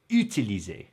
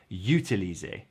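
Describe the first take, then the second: First: It starts with a plain vowel, no y sound. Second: It starts with an added y sound. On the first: The speaker calls it right. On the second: The speaker calls it wrong.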